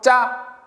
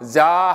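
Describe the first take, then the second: First: The first consonant is tense and stiff. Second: The first consonant is plain and lax. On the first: "사이소리 들어감으로써 ... 짜 이렇게 된 소리" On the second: "자 하지 않고"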